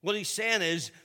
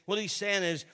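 The two takes are said the same way.

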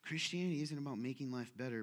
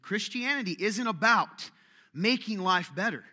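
First: Christianity isn't about making life better, dropped low and soft; quiet musing repeat. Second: Christianity isn't about making life better, slow and louder; slow emphatic restatement. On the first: Turning the idea over before the church, soft and low. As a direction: murmur it to yourself. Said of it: "What a weird, strange thing". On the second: Repeating it to the congregation, slow and emphatic. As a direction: lean on each word of making life better. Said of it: "Let that sink in". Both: Shown as a demonstration.

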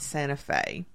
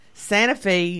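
First: "Santa Fe" ending in "fay", softer; "Santa Fe" said the usual way, "Santa Fay"; standard pronunciation. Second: "Santa Fe" ending in "fee", higher; local pronunciation. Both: Shown as a demonstration. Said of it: "not Santa Fe".

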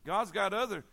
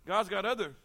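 Both takes have the same delivery.

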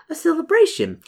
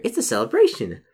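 First: Much higher echo of "celebration"; trailing-off echo. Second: Said in the usual way. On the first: Acted. May musing to her guest about the festival, trailing-off echo. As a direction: repeat "celebration" in a high, drifting voice. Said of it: "She trails off for a moment".

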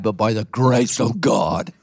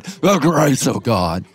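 First: Preacher cadence. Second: Slow, hammed-up pulpit intonation; imitating an old-time preacher, slow; drawn-out old preacher cadence. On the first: Retold or imitated. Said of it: "how pastors used to preach". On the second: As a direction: stretch the grace of God with old-time pulpit weight. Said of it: "That's how pastors used to preach".

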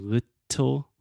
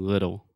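First: "little" with a crisp, fully released T; over-articulate the T in "little"; "little" split slowly on a hard T; articulated T. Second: "little" with a quick D-like flap for the T; "little" said as "liddle". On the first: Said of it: "I'm not really articulating that T sound". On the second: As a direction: let the T in "little" soften to a tap. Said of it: "that is what we call a flap T". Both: Shown as a demonstration.

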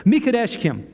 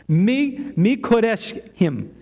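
First: Said in the usual way. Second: "Mi-" cut off, then a slow, broken "Mikodeshim"; stuttering over a word. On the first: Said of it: "I said it right earlier today". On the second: Real, not acted. Preacher recalling a word for teenagers, stuttering on "Mi-, Mikodeshim". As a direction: stumble slowly through "Mi-, Mikodeshim". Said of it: "Now I'm stuttering over it".

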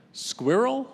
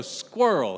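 First: British "Squirrel", two syllables, high questioning rise; British accent. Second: One-syllable "Squirrel" as "skwurl", Alabama style; Alabama accent. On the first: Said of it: "say something with a British accent". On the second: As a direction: squash "Squirrel" into Southern "skwurl". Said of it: "S K E R W L". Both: Retold or imitated.

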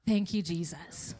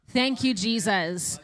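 First: Relieved thanks. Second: Grateful cheer. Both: Retold or imitated. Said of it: "we're like".

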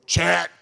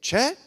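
First: CHET barked out loud; wife's cross call. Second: CHET said high with a questioning lift; wife's fond call. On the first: Wife fed up with her husband, CHET loud and sharp. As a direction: snap CHET loudly, as a fed-up wife might. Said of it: "does she say it Chet or Chet". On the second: Wife saying her husband's name, CHET pitched up and light. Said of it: "when your wife says your name, does she say it". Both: Retold or imitated.

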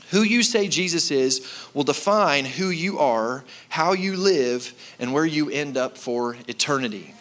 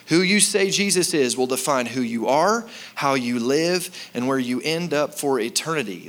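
First: Who you say Jesus is said slowly, stressing you; emphatic slow. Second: Said in the usual way. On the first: Shown as a demonstration. Pastor dictating to the note-takers, slow and weighty. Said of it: "write this down". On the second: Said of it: "I'm gonna say it again".

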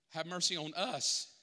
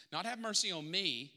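First: "us" stressed as the correction. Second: "me" leaned on, wrong version; weight the word "me" as the mistake; stress on me. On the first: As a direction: land firmly on "us". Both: Shown as a demonstration.

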